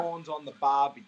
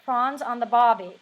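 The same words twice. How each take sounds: First: Native Australian model line, lilting Barbie; Australian accent demo. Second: Attempted Australian accent. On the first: Australian guest models the phrase for an American host in a real Australian accent. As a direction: say it the Aussie way for her to copy. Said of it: "can you say". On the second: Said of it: "can I say". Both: Shown as a demonstration.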